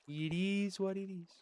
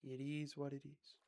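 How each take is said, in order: First: Said in the usual way. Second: Hushed, resigned mantra; mock serene. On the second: To himself, calming down, soft resigned mantra. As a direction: let it go in a soft murmur.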